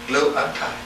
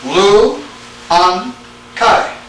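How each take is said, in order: First: "Lu an kai" run together, much softer; soft repeat. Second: LU, AN, KAI as three separate beats; syllable by syllable. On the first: Teacher repeating the plural form to students, softly run together. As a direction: repeat "Lu an kai" quietly as one word. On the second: Teacher showing students the plural form, syllable by syllable. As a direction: break "Lu an kai" apart with clear pauses. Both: Shown as a demonstration. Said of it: "See that?".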